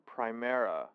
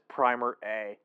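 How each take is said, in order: First: It is said as one smooth word. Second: It is said as 'primer' plus letter A.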